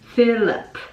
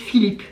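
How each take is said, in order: First: The name is pronounced the English way. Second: The name is pronounced the French way. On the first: "c'est pas avec un E. ... On va le prononcer comme ça" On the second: "Nous, euh, c'est limite Philippe"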